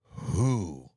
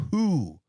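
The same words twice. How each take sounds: First: Who, dropped low like an owl's hoot; mock owl who. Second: WHO hit loud and sharp; who, said loud and clipped; stressed who. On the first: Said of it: "I sounded like an owl". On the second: Shown as a demonstration. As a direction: punch the word who. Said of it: "You know what a fucking owl sounds like?".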